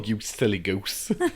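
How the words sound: It is said in a put-on camp voice. "always in this really camp voice"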